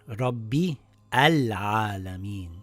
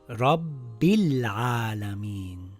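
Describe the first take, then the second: First: A separate vowel starts the second word. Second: The words run together with no separate vowel. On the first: The speaker calls it wrong. "and not" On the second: The speaker calls it right. "the Hamzatul Wasl gets dropped"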